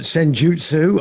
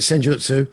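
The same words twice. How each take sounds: First: The word is said in a longer, drawn-out form. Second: The word is said in a shorter, clipped form. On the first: "just takes slightly longer to say" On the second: "I call it Senjutsu"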